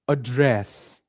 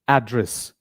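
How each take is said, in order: First: The stress is on the second syllable. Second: The stress is on the first syllable. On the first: It is an action, like speaking to an audience. "when I'm giving a speech ... the stress is on the second part of the word" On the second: It names a house number or location. "First syllable, ... that means house number"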